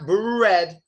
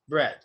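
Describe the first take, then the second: First: The R is said with rounded, pushed-out lips. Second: The R is said without rounded lips. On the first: The speaker calls it wrong. "It's not bread" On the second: The speaker calls it right. "it's just bread"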